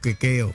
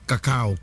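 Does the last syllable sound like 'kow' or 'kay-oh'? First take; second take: kay-oh; kow. First: The last syllable sounds like 'kay-oh'. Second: The last syllable sounds like 'kow'. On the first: The speaker calls it wrong. "May iba na pinupronounce yan ng kakeo" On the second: The speaker calls it right. "kakao lang po yan eh"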